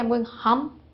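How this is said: Home has a short 'uh' vowel. Someone from another culture says it. "they ideally will say, I'm going hum"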